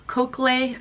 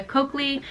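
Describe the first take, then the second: First: "cochlea" said as KOHK-lay; unsure pronunciation. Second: "cochlea" said as KOHK-lee; unsure pronunciation. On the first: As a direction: try "cochlea" with the ending changed to -lay. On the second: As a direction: say "cochlea" in two syllables, ending in -lee. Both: Shown as a demonstration. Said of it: "I don't know how to say".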